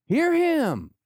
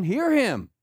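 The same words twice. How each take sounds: First: Very high, loud cry; soaring, ringing proclamation; booming voice from heaven. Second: High, raised command; first emphatic call; voice from heaven. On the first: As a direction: call it out at full pitch like a heavenly command. Repeats God's command, escalating. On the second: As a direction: proclaim it loudly from on high. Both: Acted.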